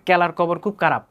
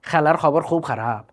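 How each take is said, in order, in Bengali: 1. এটি ময়মনসিংহের উচ্চারণে বলা হয়েছে। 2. এটি সিলেটি উচ্চারণে বলা হয়েছে। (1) "ওরা খ না বলে ক বলে" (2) "সিলেটিদেরকে বলবেন তারা বলবে"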